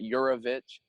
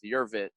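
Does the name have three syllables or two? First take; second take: three; two. First: The name has a middle vowel, three syllables. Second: The name drops the middle vowel, two syllables. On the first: This is how most people say the name. "most people pronounce it Yurovich" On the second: This is how the owner of the name prefers it. "I get rid of the A in the middle"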